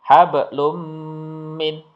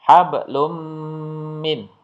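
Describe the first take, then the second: The two takes are said the same way.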